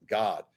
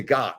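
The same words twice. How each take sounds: First: "God" said with a rounded English aw vowel, like "Gawd"; English-style God. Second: "God" said with a short open American ah vowel. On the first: Actor contrasting the English "God" with the American. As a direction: give "God" the old colonial English vowel, softly. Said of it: "not God". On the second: Actor demonstrating the American "God". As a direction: say "God" the plain American way, like "Gahd". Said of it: "So Americans say God". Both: Shown as a demonstration.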